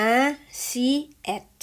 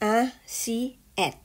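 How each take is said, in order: The two takes are said the same way.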